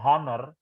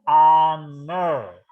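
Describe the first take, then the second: First: It starts with an audible h sound. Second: It starts with a vowel, no h sound. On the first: The speaker calls it wrong. "bukan honor" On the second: The speaker calls it right. "huruf H-nya nggak dibaca, dibaca A, ya, dibaca honor"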